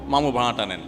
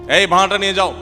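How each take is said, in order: First: It is said in a gentle, polite tone. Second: It is said in a rude, bossy tone.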